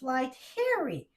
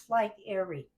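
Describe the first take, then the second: First: The second word starts with an H sound. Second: The second word starts with a vowel sound. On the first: The speaker calls it wrong. "I want to put an H" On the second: The speaker calls it right. "It don't have an H"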